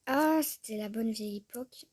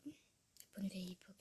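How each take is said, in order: First: Loud nostalgic sigh. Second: Soft unvoiced whisper, to herself; whispered echo. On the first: Vlogger reminisces over old Sims creations, loudly nostalgic. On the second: Vlogger repeats the phrase to herself, whispering. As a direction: breathe the phrase back as a private echo. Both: Real, not acted.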